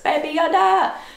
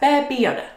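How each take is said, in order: First: It is yelled loudly. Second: It is said quickly at normal loudness.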